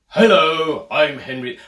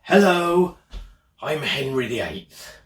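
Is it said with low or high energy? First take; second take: high; low. First: It is said livelier, with more energy. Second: It is said flatly, with low energy.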